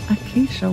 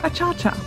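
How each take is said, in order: First: The word is said in its usual form, 'acacia'. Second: The word is said in a playful form, 'achacha'.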